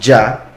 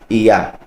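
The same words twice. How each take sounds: First: It begins with a hard English j sound. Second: It begins with a soft y sound. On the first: The speaker calls it wrong. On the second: The speaker calls it right.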